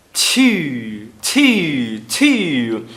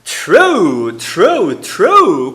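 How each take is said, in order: First: True said as ti without R. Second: True with a clear R after T. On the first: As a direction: drop the R entirely from true. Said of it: "Ela tira o R completamente". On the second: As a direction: keep the R in true. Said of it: "se ela não fala o R". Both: Shown as a demonstration.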